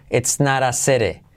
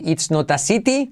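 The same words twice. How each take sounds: First: It's not a city with flapped naɾ, seɾe; right It's not a city. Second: It's not a city with crisp t sounds; careful spelled-out t in city; the mistake; wrong It's not a city. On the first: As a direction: soften every t into a light r. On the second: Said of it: "No vas a decir". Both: Shown as a demonstration.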